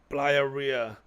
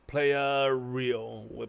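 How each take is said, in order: First: The name is pronounced the Spanish way. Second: The name is pronounced the English way. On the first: The speaker calls it right. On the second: The speaker calls it wrong.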